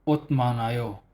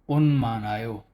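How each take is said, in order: First: The first syllable ends in a t sound. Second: The first syllable ends in an n sound. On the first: The speaker calls it wrong. "Instead of otmanayo" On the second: The speaker calls it right. "naging onmanayo"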